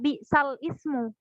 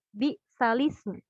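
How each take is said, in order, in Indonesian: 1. Dua kata terakhir diucapkan terpisah. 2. Dua kata terakhir diucapkan menyambung menjadi satu. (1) "tidak dibaca bi sal ismu" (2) "tapi bi salismu"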